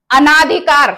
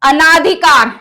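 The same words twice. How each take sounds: The two takes are said the same way.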